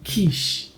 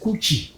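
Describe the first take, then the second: First: It is said as one syllable, like keesh. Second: It is said as two syllables, like koo-chee. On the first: The speaker calls it right. "it is pronounced quiche" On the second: The speaker calls it wrong. "not coochie"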